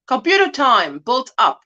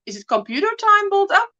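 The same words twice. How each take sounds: First: Said in the usual way. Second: Computer time built up, lifted into a higher, quick question; puzzled question. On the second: Real, not acted. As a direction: query "computer time built up" with rising pitch. Queries what she just read.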